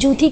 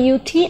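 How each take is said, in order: First: The word begins with a J sound. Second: The word begins with a Y sound. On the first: The speaker calls it wrong. "জুথি কিন্তু নয়" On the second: The speaker calls it right. "তখন ওটা ইউথি"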